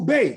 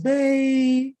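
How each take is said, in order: First: It sounds excited, with good news to share. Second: It sounds tender and touched.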